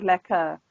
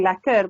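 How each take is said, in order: First: "lekker" ending in an open uh, no r; r dropped in lekker. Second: "lekker" with the final r pronounced; r sounded in lekker. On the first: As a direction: drop the final r of "lekker". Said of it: "but lekker". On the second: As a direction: say "lekker" ending on an audible r. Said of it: "Not saying lekker". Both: Shown as a demonstration.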